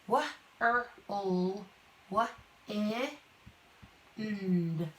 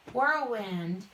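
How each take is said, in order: First: "Wah, er, ul, wah, eh, and" one sound at a time; "whirlwind" broken slowly into its phonemes. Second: Said in the usual way. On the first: Shown as a demonstration. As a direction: separate each sound of whirlwind, pausing between. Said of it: "sound out words". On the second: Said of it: "this is a compound word".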